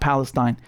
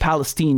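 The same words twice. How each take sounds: First: The name ends with a 'tine' sound. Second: The name ends with a 'teen' sound. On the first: This is not how the town's residents say it. The speaker calls it wrong. "not Palestine" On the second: This is how the town's residents say it. The speaker calls it right. "they say it Palestine"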